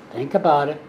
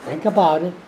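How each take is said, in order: Both takes have the same delivery.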